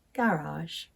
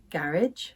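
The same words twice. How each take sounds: First: "garage" as "GA-rahzh"; RP pronunciation. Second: "garage" as "GARR-idge"; Northern pronunciation. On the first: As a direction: end "garage" on a long ah and soft zh. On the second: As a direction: say "garage" to rhyme with carriage. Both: Shown as a demonstration. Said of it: "The other differences were".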